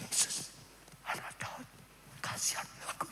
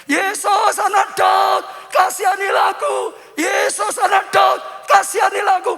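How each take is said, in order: First: Barely audible polite plea; timid whisper. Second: Full-force high shout; Bartimeus. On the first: Shown as a demonstration. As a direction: whisper it so as not to disturb anyone. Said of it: "aku pelan-pelan saja". (berbisik pelan demi kesopanan) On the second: Acted. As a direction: cry out for mercy as loud as possible. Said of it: "teriak lebih, lebih keras malah". (teriakan sekeras-kerasnya memohon belas kasihan)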